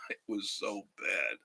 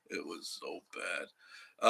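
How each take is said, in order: First: Said in the usual way. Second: Slowed right down and softer; slow dragged repeat. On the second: Real, not acted. Telling viewers about awful hospital food, slow and drawn out. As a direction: drag each word out, sinking lower.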